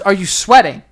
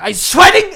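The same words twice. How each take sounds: First: It is said in a plain accent. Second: It is said with a German accent.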